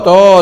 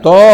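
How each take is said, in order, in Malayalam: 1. ഈ അക്ഷരത്തിൽ വട്ടത്തിലുള്ള o സ്വരമുണ്ട്. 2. ഈ അക്ഷരത്തിൽ വട്ടത്തിലുള്ള o സ്വരമുണ്ട്.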